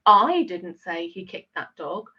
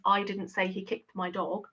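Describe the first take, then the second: First: "I" pushed out louder and slow, the rest falls away; stress on I. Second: Said in the usual way. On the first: Shown as a demonstration. Trainer showing teachers how stress shifts meaning, louder slow "I". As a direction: lean hard on "I", then let the words trail slowly. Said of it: "emphasize one of those words". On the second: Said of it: "if you think of the sentence".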